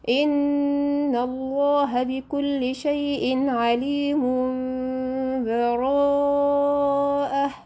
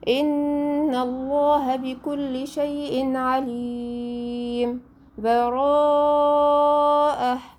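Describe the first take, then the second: First: The words run together with no break between them. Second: A full stop with a breath before the last word. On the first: "الوصل" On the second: "الوقف ... هقف الاول"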